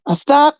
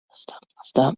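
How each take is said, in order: First: Said in the usual way. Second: Barely audible whispered promise. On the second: Real, not acted. Comic cuts off her movie riff, whispering. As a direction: whisper "I'll stop." to yourself.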